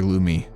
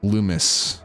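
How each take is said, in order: First: The name ends without any S sound. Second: The name ends with an audible S sound.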